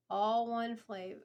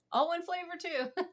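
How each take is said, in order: First: Said in the usual way. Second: Higher, amused laughing correction. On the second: Real, not acted. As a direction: laugh it off, pitch up. Corrects slip, still amused.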